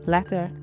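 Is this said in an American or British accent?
British. The final r is not pronounced.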